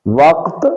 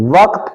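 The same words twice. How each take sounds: First: وقت as one syllable, "waqt"; no vowel on the qaaf in وقت, "waqt"; درست تلفظ. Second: وقت in two syllables, "wa-qat"; غلط تلفظ. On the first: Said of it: "درست تلفظ". (وقت، قاف ساکن کے ساتھ) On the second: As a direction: put a vowel on the qaaf in وقت, "waqat". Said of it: "غلط ہے". (وقت، قاف پر زبر کے ساتھ) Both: Shown as a demonstration.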